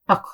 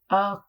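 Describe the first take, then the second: First: The sound is short and quick. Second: The sound is drawn out long. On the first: The speaker calls it right. "Kalkala has to be quickly" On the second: The speaker calls it wrong. "I'm not going to say ak"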